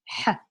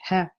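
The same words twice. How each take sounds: First: The h is tight and raspy, made deep in the throat. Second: The h is a light, plain breath like English h. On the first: "the sound is ha" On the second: "sounding like an H in English"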